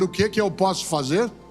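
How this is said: It sounds willing and ready to act.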